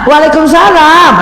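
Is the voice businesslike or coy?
coy. It is said in a sweet, coy, pampered voice. The listener is a husband to be pampered. "Sama kan?"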